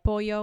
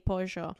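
First: The double L sounds like an English y. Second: The double L sounds like zh or sh.

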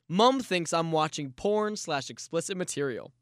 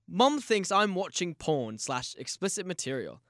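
First: It is read in the speaker's ordinary accent. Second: It is read in a put-on British accent.

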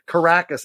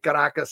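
First: The word has an anglicized English pronunciation. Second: The word has a native Spanish pronunciation. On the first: The speaker calls it wrong. "I don't say Caracas" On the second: The speaker calls it right. "I say Caracas. ... I've got perfect enunciation"

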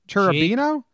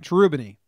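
First: The name ends with an 'oh' vowel. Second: The name ends with an 'ee' vowel. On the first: The speaker calls it wrong. "I don't know why you're putting an O on the end" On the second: The speaker calls it right. "That's not as fun as Cherubino"

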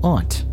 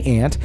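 First: The word has the formal careful vowel. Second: The word has the casual everyday vowel. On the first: This is the version thought more proper. The speaker calls it right. "For whatever reason on the show, I'm saying aunt" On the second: This is how the speaker's family says it. The speaker calls it wrong. "I always say aunt"

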